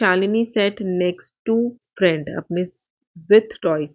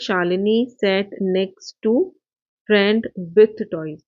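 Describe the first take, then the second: First: There is a pause before "with toys". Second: The sentence runs on without a pause. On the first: Shalini herself has the toys. "यहाँ पे comma लगा दिया है" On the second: Shalini sits with a friend who has toys. "अब पूरी line एक साथ हो"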